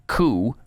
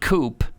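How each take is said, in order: First: The word ends in an oo sound, no p. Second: The word ends with an audible p sound. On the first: The speaker calls it right. "it's uh, supreme court coup dot com" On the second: The speaker calls it wrong. "It's not coop like uh, Barack Obama p- pronounced it"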